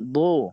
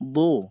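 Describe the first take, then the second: Both takes have the same delivery.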